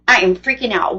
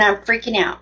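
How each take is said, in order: First: "I am" spelled out firmly, "am" weighted; stress on "am". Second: Said in the usual way. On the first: Retold or imitated. Driver recounting her panic at the stop, stress on "am". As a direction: lean on "am" to insist on it. Repeats it with full emphatic form.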